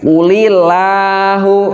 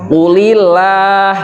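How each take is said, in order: First: The l in Allah is heavy and thick. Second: The l in Allah is light and thin. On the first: The speaker calls it wrong. "Jangan dibaca qulillahu" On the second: The speaker calls it right. "ini lafaz Allahnya itu harus dibaca tipis"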